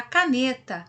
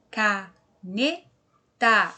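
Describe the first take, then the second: First: Said in the usual way. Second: "caneta" very slow, split ca, ne, ta; syllable by syllable. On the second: Shown as a demonstration. Teacher filling in the missing syllable, word sounded out slowly. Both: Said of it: "Se nós falamos separadinho".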